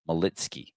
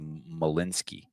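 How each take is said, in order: First: The middle of the name has a t sound. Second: The middle of the name has an n sound. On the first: The speaker calls it right. "I can finally say it right" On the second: The speaker calls it wrong. "I always say Malinsky"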